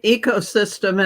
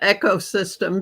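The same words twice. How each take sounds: First: The first syllable sounds like 'eek'. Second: The first syllable sounds like 'echo'. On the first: The speaker calls it right. "I think you mean ecosystem" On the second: The speaker calls it wrong. "as opposed to ecosystem because we don't do the echo stuff here"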